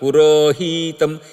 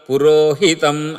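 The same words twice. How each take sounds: First: The accented syllable 'hi' is drawn out long. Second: The accented syllable 'hi' is kept short. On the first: This follows the Dravida recitation style. "కానీ వాళ్ళు ఏం చేస్తారంటే పురోహితం పురోహితం, ... అది దీర్ఘంలాగా చెప్తారు" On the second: This follows the Andhra recitation style. "ఇప్పుడు మనం చెప్పేది పురోహితం పురోహితం అది స్వరితం, సాధారణ హ్రస్వస్వరితం అది"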